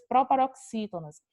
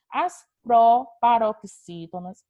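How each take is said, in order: First: Said in the usual way. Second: "proparoxítonas" broken slowly into chunks, louder; loud, drawn-out "proparoxítonas" with small breaks; slow, emphatic enunciation. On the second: Shown as a demonstration. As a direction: spell out "proparoxítonas" piece by piece for a class. Term repeated slowly for the class.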